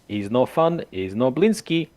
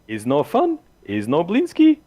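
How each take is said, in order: First: It is said in his normal narrating voice. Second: It is said in a put-on Blinsky voice.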